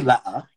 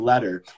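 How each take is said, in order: First: The middle T is dropped, English regional style. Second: The middle T sounds like a soft D.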